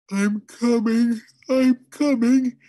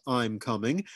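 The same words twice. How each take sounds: First: High, loud, slow drowsy wail; slow sleepy wail. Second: Said in the usual way. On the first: A narrator's reading. Father half asleep in the attic wails back, slow and loud. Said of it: "he wailed in a slow, sleepy voice". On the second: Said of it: "detected in his".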